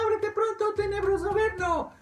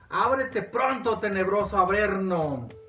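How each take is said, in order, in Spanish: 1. La voz está elevada, delgada y aguda. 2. La voz tiene un tono normal.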